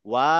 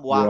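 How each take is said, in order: First: The final vowel is drawn out long. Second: The final vowel is kept short. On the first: "this আলিফ is just extending the sound" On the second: "আলিফ যদি না থাকতো তাহলে বলতাম ওয়া"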